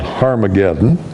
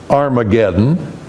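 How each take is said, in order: First: The word begins with a breathy H sound. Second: The word begins with a plain vowel sound. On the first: "there's that H sound, the rough breathing up front" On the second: "you're used to seeing that without the H"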